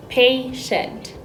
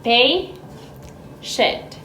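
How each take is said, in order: First: Said in the usual way. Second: "Patient" said much softer, nearly breathed; quiet model of "Patient" for syllable counting; soft demo. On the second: Shown as a demonstration. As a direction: ease the word out for counting. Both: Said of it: "How many syllables does it have?".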